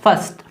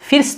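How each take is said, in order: First: The vowel is a central 'er' sound. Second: The vowel is a short 'i' sound. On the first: The speaker calls it right. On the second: The speaker calls it wrong. "इसको फिर्स्ट नहीं पढ़ रहे हैं"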